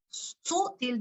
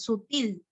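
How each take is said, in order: First: "Sutil" wrongly stressed as SÚ-til; stress on first syllable. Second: "sutil" stressed as su-TIL; stress on last syllable. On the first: Teacher tests the wrong stress, stress on SU in "Sutil". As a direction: hit the SU of "Sutil", high, then drop. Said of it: "no, es sutil". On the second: Teacher corrects the class on accent, stress on TIL in "sutil". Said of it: "Til, til". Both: Shown as a demonstration.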